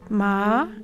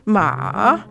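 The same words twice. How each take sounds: First: The pitch rises gently upward. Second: The pitch dips low, then rises. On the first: "a gentle upward gliss" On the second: "is sort of like a J-type pattern"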